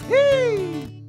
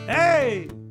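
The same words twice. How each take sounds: First: It is said in a high, light falsetto voice. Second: It is said in a low, full chest voice. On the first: "What's the head voice?" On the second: "what is the chest voice?"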